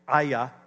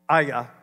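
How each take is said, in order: First: The name is said with a guttural sound. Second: The name is said with a guttural sound.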